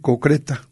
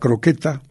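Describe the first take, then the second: First: The word begins with the sounds co. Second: The word begins with the sounds cro. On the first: The speaker calls it wrong. "suelen decir cocreta" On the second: The speaker calls it right. "que es la croqueta"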